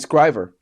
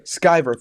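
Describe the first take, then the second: First: An r sound follows the c. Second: No r sound follows the c. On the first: The speaker calls it wrong. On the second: The speaker calls it right.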